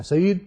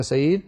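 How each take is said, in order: First: "Saeed" called out sharply with a rising end; forceful call. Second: Calling a name kindly and evenly; polite call. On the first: Teacher demonstrating calling Saeed forcefully, with a hint of anger. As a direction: snap the name "Saeed" as if annoyed. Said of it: "بہت زور سے کہا". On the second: Teacher demonstrating a polite way to call Saeed. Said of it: "یہ ایک اچھا کہنے کا طریقہ ہے". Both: Shown as a demonstration.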